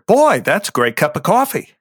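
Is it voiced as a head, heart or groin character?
head. It is voiced as a head-centered character.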